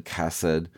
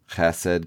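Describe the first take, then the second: First: Chesed starting with a plain hard k sound. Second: Chesed with a rough throaty kh, like Scottish loch; guttural chesed. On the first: Reader shows the other spellings: hard k chesed. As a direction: say chesed as kesed with a crisp k. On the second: Reader shows the other spellings: throaty kh chesed. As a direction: start chesed with a scraped throat sound. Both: Shown as a demonstration. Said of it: "The other common transliterations".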